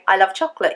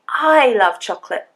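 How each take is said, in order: First: No word carries special stress. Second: The first word carries the stress. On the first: It is a plain statement. "You don't have to really stress any of the words" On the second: The speaker, not someone else, loves it. "I mean me, not you"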